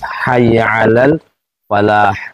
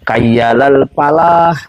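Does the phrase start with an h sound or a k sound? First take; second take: h sound; k sound. First: It starts with h and uses an f sound. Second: It starts with k and uses a p sound. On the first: The speaker calls it right. "Dia kapan harus kaf, kapan harus ha" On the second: The speaker calls it wrong. "banyak yang muazin itu kayyalal palah"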